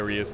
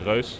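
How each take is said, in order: First: The name is said with English vowel sounds. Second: The name is said with Dutch vowel sounds. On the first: This is an accepted alternative for others. "we still allow you to say" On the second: This is how the makers say it. "it's a Dutch game, and we actually pronounce it"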